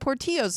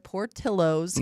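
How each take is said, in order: First: The double L is said like a Y sound. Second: The double L is said like an L sound. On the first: It follows the Spanish spelling of the name. "you pronounce it Portillo's" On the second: It is how locals say the name. "that's how Chicagoans say it"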